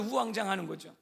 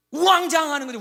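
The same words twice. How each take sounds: First: Said in the usual way. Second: 우왕좌왕하는 shouted high and loud, falling at the end; loud emphatic. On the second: Shown as a demonstration. Preacher shouting 우왕좌왕하는 to show panicked scrambling. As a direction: belt out 우왕좌왕하는 with full force.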